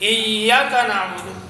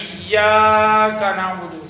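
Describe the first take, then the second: First: The long vowel is cut too short. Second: The long vowel is stretched too long. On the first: "अलिफ से भी कम कर दिया" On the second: "ज़्यादा लंबा कर दिया"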